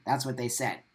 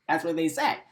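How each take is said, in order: First: Said in the usual way. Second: Laughs, then repeats it with a rising end; real amused disbelief; laughing in disbelief. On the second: Real, not acted.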